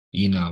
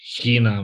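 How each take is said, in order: First: The word begins directly with a vowel. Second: The word begins with an h sound. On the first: This is the modern Greek pronunciation. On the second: This is the classical school pronunciation.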